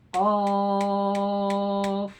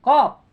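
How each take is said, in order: First: "Kof" with its vowel held very long, level pitch; six-count long Kof. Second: Said in the usual way. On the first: Shown as a demonstration. Teacher demonstrating six harkat to students, "Kof" drawn out evenly. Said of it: "Nah, enam harkat".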